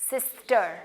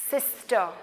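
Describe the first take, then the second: No difference in how they are said.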